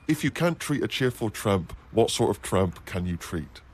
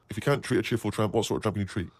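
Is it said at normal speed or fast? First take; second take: normal speed; fast. First: It is said at normal reading speed. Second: It is said quickly, like a tongue twister.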